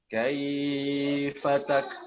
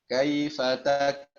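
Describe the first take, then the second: First: The 'kai' sound is drawn out long. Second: The 'kai' sound is kept short. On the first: The speaker calls it wrong. "Apa Ustadz dan Ustadzah bacanya seperti itu? Ya, tentu saja tidak" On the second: The speaker calls it right. "Kita bacanya ya biasa aja ya"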